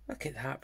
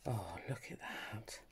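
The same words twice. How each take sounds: First: Said in the usual way. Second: Hushed admiring whisper. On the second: Real, not acted. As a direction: whisper it softly in delight.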